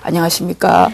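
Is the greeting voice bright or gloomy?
gloomy. The greeting is said in a dull, gloomy voice. The speaker does not really wish the listener well. The speaker calls it wrong. "이렇게 인사하면 그건 안녕한 게 아니에요"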